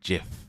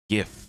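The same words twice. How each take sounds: First: The word begins with a J sound. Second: The word begins with a hard G sound. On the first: "I do not say GIF, as in like J I F" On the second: "I say GIF. G I F"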